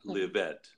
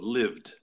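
First: The ending is an extra syllable with a vowel. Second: The ending is a bare d sound, no vowel. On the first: The speaker calls it wrong. "not lived" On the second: The speaker calls it right. "And also lived"

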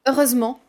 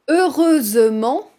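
First: The 'e' before '-ment' is dropped. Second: The 'e' before '-ment' is pronounced. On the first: "devient heureusement" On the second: "heureusement devient"

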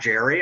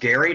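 First: It begins with a soft J sound. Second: It begins with a hard G sound. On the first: The speaker calls it wrong. "not Jerry" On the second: The speaker calls it right. "his name is pronounced Gary"

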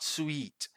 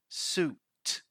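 First: The vowel sounds like 'ee' after a W glide. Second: The vowel sounds like a long 'oo'. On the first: The speaker calls it wrong. "It's not sweet" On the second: The speaker calls it right. "It's suit"

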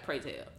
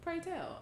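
First: It is said in a plain, ordinary voice. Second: It is said in a fancy, affected voice. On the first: The speaker calls it wrong. "I can't just be like" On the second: The speaker calls it right. "Because the way that word is, like"

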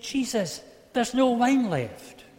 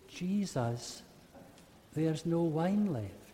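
First: It is said in an angry tone. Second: It is said quietly and fearfully.

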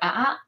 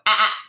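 First: It is soft and weak, without force. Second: It is sharp and cutting, with firm energy. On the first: The speaker does not really mean it. The speaker calls it wrong. "I can sit here and be like" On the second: The speaker means business. The speaker calls it right. "There's a different energy behind it"

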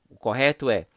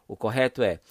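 No difference in how they are said.

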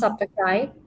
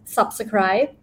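First: The word is said quickly and run together. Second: The word is said slowly and fully.

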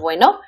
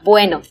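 First: It is said as a question, rising. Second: It is said as a statement, falling.

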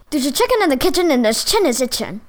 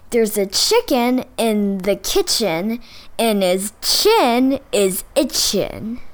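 First: It is said at a very fast pace. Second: It is said slowly and carefully.

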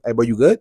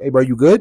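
First: It sounds hostile and challenging. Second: It sounds worried and caring.

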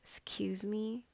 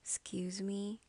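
First: The first vowel is dropped, starting from x. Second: The same.

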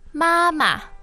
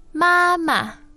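Both takes have the same delivery.

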